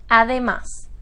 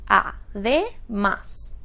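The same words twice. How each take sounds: First: Said in the usual way. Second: "además" slowly split as a, de, más; syllable by syllable. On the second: Shown as a demonstration. Teacher asking where it is stressed, "además" syllable by syllable. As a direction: sound out "además" with pauses between syllables. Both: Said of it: "¿Dónde está acentuada?".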